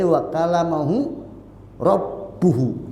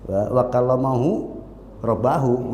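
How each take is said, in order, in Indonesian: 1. Kata rabb berakhir dengan vokal u. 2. Kata rabb berakhir dengan vokal a. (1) "nggak mungkin dibaca kecuali"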